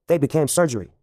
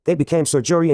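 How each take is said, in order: First: Said in the usual way. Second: "Sir Jury" as a title and a name, full "joo" in "Jury"; pun split apart. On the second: Shown as a demonstration. Joke-teller naming the newly knighted jury, pun split apart. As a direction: say "Sir Jury" as two distinct words. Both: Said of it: "Get it?".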